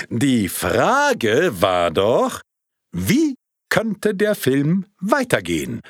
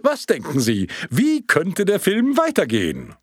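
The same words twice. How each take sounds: First: Slow, heavy words with weight on Frage; slow it down and lean on Frage; weighty repeat. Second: Quick, light question to the room; first asking. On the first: Projectionist repeats his question with added weight, slow and emphatic. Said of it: "um seiner Aussage mehr Gewicht zu verleihen". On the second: Projectionist first asks the audience, light. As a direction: toss the question out. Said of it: "fragte er in die Runde". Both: Acted.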